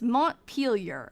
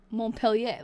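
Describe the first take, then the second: First: The name is said with English pronunciation. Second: The name is said with French pronunciation. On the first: The speaker calls it right. "that's not how they pronounce it. It's Montpelier" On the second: The speaker calls it wrong. "the way I pronounced it before was Montpellier, like Montpellier. That would be French"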